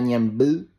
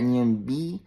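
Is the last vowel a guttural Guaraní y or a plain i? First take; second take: guttural y; plain i. First: The last vowel is a guttural Guaraní y. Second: The last vowel is a plain Spanish i. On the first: The speaker calls it right. "no le decía Ñemby" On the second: The speaker calls it wrong. "le decía Ñemby"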